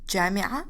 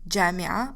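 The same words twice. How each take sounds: Both takes have the same delivery.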